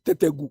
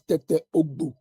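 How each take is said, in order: First: The name is run together into one word. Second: The name is said as two separate words. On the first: The speaker calls it wrong. "the way they pronounce it" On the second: The speaker calls it right. "the actual name is"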